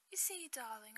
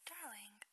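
First: Hammed-up, badly faked British accent; British accent, done badly on purpose; horrible British accent. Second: Said in the usual way. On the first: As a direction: put on a playful mock British accent. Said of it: "say it with a British accent". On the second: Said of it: "you just have to say it with a British accent".

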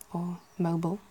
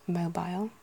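First: Mobile with a short ending; mobile as mo-bul. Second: Mobile rhymes with while; mobile as mo-bile. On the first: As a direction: say mobile like mobul. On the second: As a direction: say mobile with a long i. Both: Shown as a demonstration.

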